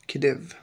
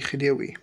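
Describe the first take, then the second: First: It is said with English sounds, ending in -eev. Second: It is said with Arabic sounds, ending in -iwi. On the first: The speaker calls it wrong. "لو بالإنجليزي هتبقى كديف" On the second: The speaker calls it right. "دي هننطقها بالعربي خديوي"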